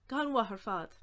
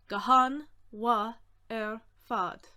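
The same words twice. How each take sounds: First: Said in the usual way. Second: Each word separate and projected; very deliberate, gaps between words; slow breakdown. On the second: Shown as a demonstration. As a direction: sound it out slowly for learners.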